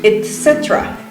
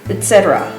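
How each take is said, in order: First: It is said in a less American way. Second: It is said in a more American way. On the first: "In English it's similar, the writing is the same, but we say etc" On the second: "to sound even more American, they actually say etc"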